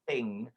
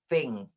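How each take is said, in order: First: The word starts with a th sound. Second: The word starts with an f sound. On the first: "instead of saying thing" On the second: "He doesn't pronounce the th sound. He says f"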